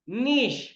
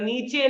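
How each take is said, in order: First: The word ends with an 'sh' sound. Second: The word ends with a 'chay' sound. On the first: The speaker calls it right. "नीश सही है" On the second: The speaker calls it wrong. "या फिर ई को प्र- वो उसको pronounce नहीं कर लेना, नीचे नहीं है ये"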